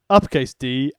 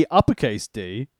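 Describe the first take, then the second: Both takes have the same delivery.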